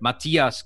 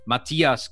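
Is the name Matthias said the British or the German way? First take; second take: German; German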